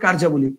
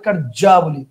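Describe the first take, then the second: First: The j sound in the middle is single. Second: The j sound in the middle is doubled. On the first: The speaker calls it right. "Correct answer হবে কার্যাবলী" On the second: The speaker calls it wrong. "কার্যাবলী মানে দুইটা জ, সেটা হবে না, এটা ভুল।"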